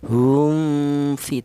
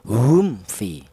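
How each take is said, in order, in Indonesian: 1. Huruf m samar sebelum f. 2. Huruf m dibaca jelas dengan bibir tertutup. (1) "Tidak boleh" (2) "Maka cara bacaan dibaca jelas"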